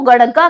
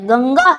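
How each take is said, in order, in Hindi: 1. बीच का व्यंजन 'r' जैसी फ्लैप ध्वनि है। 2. बीच का व्यंजन 'ng' जैसी नासिक्य ध्वनि है। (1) "ये गड़ग्गा नहीं है" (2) "गंगा है आपकी, यानी अंगे का उच्चारण आता है"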